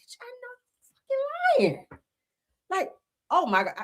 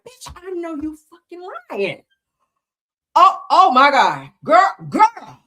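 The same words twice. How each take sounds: First: Dramatic disbelief. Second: High, slow, scandalized gasp of disbelief; dramatic disbelief. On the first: Mocking her own dramatic reaction to gossip, squealing high. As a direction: overplay the shock for laughs. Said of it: "I'm so dramatic". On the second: Showing viewers her dramatic reaction to juicy messages, slow and high. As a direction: clutch your pearls over the juiciest text. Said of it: "Y'all do that when you be reading something real juicy". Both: Shown as a demonstration.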